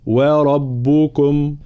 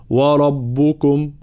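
First: وربكم with a clear thin و, very slow; light waw. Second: وربكم with a thick, rounded و, slow; heavy waw, wrong. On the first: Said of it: "لا". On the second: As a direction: darken the و of وربكم as an error. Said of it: "لا نقول". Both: Shown as a demonstration.

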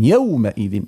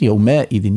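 First: يومئذ with a clean short ending; correct pronunciation. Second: يومئذ with an added vowel at the end; mock the error in يومئذ; wrong pronunciation. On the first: Teacher gives the right يومئذ, correct form. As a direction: say يومئذ crisply, no extra vowel. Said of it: "مش يومئذ". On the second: Teacher imitates the common mistake, wrong form. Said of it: "لا، لا، مش يومئذ". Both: Shown as a demonstration.

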